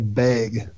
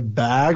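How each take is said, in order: First: The word is said in a local accent. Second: The word is said in a standard accent. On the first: "We have a stupid accent too" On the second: "we don't say bag"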